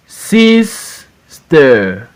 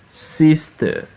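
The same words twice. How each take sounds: First: SIS, pause, TER; syllable by syllable. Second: Said in the usual way. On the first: Shown as a demonstration. Teacher reading for pupils to repeat, Sister broken as SIS-TER. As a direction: Sister split into two drawn-out beats. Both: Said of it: "we are in two syllables word".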